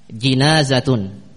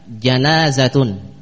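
First: The first syllable has the vowel i. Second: The first syllable has the vowel a. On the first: "jinazatun bikasri al jim, dengan jim yang dikasrah" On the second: "al-janazatu bifathi al-jim, dengan jim yang difathah"

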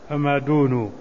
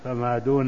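First: The final nun ends with a 'u' vowel. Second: The final nun ends with an 'a' vowel. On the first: The word stands alone without a following noun. "بضم النون لقطعه عن الإضافة" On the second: The word is joined to a following noun. "لكن لو أضفته ... تفتح النون"

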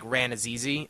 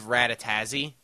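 First: The name is said with n sounds. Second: The name is said with several t sounds. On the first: This is an attempt at the real name. The speaker calls it right. "with more N's instead of T's" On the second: This is the mistaken version someone else used. The speaker calls it wrong. "I'll say what .com said. He put like 3 T's in there"

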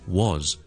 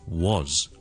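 First: It is said strongly with a full, clear vowel. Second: The same.

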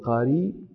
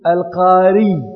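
First: It ends in a plain long vowel without a glottal stop. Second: It ends with a doubled, lengthened y sound. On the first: The word is a reader, with the hamza softened. The speaker calls it right. "وقد تسهلون فتحذفون الهمزة وتقولون القاري" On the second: The person belongs to the tribe of al-Qara. The speaker calls it wrong. "ولا يمكنكم أن تقولوا القاري بشديد الياء"

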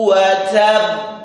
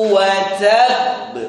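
The two takes are said the same way.

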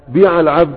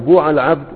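First: The verb's first vowel is an i sound. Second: The verb's first vowel is a u sound. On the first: "الكسرة" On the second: "والضمة"

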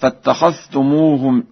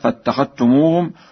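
First: The dh is pronounced separately before t. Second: The dh is merged into a doubled t.

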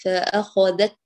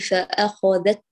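First: The final t stops the sound completely. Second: The final t stops the sound completely.

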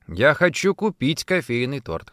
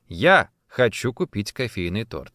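First: The stress is on the word купить. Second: The stress is on the word я. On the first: The cake is to be bought, not baked or received. "«Хочу купить», а не испечь или получить в подарок" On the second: The speaker, not someone else, wants it. "Именно я, а не моя мама или муж"

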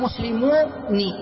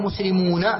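First: The final n is followed by an 'i' vowel. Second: The final n is followed by an 'a' vowel. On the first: This is a rare usage of some Arabs. "يوجد من العرب من نطق به مكسورا، فيقولون" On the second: This is the common, well-known usage. "فافتح، جعلها مفتوحة، فتقول"

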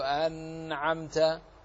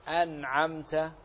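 First: The n sound is held too long. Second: The n sound is short and plain. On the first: The speaker calls it wrong. "كما لا نزيد فلا نقول أنعمت" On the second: The speaker calls it right. "فنقول أنعمت"

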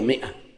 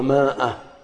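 First: The first vowel is a short 'i'. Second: The first vowel is a long 'a'. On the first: The speaker calls it right. "هي 100" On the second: The speaker calls it wrong. "وبعضهم ينطقها ماء، ينظر إليها مكتوبة كذا"

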